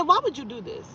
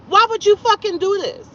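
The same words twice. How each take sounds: First: Softer, slightly higher retold question; restrained reproach. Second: High-pitched, indignant retold question; exasperated demand. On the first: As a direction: ask him why, holding the volume back. First asking in retold confrontation. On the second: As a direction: demand an answer, voice way up. Repeats the question, escalating.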